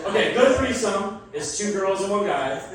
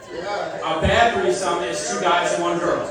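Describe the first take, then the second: First: Said in the usual way. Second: Slow, deliberate statement. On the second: Shown as a demonstration. Comic to crowd, slow and deliberate. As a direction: spell it out slowly like a rule. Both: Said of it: "This is universal law".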